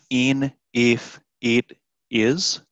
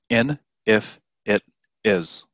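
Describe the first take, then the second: First: The vowels are long ee sounds. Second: The vowels are short i sounds. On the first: The speaker calls it wrong. "it's not in, if, it, is" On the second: The speaker calls it right. "With the short I sound"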